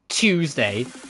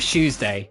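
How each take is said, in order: First: The word begins with a ch sound. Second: The word begins with a sound close to sh. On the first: The speaker calls it wrong. "You don't pronounce it like a ch" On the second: The speaker calls it right. "it's more like a sh. Like sh, but with a little bit of a kick on it. You go Tuesday"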